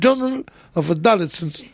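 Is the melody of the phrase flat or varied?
varied. It is said with stressed syllables, highs and lows. The speaker calls it right.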